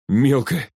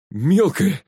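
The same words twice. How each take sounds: First: Choked-up, higher exclamation; short of breath with shock; gasped. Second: Glad, high-pitched call to a friend; higher, happy exclamation; joyful shout. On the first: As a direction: gasp the word out. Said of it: "задохнулся Глеб". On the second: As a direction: cry it out in delighted relief. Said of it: "радостно крикнул Глеб". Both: A narrator's reading.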